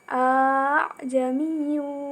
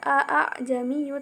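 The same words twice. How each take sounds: First: The second hamzah is softened and lightened. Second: The second hamzah is pronounced fully. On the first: The speaker calls it right. "tetapi dibaca a'jamiyyu wa arabi" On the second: The speaker calls it wrong. "tidak dibaca a'jamiyyu"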